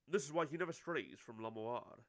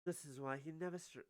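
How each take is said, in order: First: Lower, firmer character voice; manager character. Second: Said in the usual way. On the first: Acted. Manager explains the pianist's closeness, lightly voiced low and firm.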